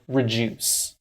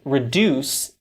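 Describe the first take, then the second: First: The middle sound is a soft j. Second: The middle sound is a clear d. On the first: The speaker calls it wrong. "is not pronounced like reduce" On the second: The speaker calls it right. "reduce is not pronounced like"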